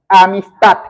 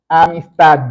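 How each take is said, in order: First: The word ends with a voiceless t sound. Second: The word ends with a voiced d sound. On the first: The speaker calls it wrong. "voy a terminarla en T" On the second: The speaker calls it right. "voy a terminarla en D"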